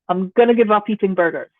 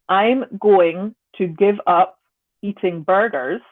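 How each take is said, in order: First: Said quickly, the words run together. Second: Said slowly, each word kept separate. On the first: "When I say that quickly, going to and give up are going to connect and become one sound" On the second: "if I say slowly"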